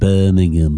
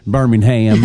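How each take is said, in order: First: It is said the English way. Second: It is said the Southern American way.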